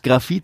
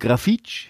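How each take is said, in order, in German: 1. Der Name endet auf ein einfaches „t“. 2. Der Name endet auf ein „tsch“. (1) "Aus Grafit wurde" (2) "wurde Grafitsch"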